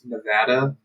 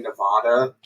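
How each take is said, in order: First: It is said the local western way. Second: It is said the way outsiders say it. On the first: This is how people in the West say it. The speaker calls it right. "if you're on the west coast or west of I don't know the Continental Divide or whatever, it's Nevada" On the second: This is how people from elsewhere say it. The speaker calls it wrong. "when you hear people say Nevada, it just... I hate it"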